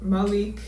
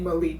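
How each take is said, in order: First: The name is said with an Arabic pronunciation. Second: The name is said with an American pronunciation. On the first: The speaker calls it right. "the Arabic pronunciation is a little more like Malik" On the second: The speaker calls it wrong. "my American pronunciation is gonna slip through"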